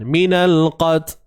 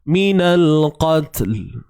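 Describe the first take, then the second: First: The final 'l' sound is dropped entirely. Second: The final 'l' sound is clearly pronounced. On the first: The speaker calls it wrong. "Langsung terhapus satu sifat ataupun zat bunyi lam tu langsung tak ada" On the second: The speaker calls it right. "terus bawa hujung lidah kita ni pada makhraj dia"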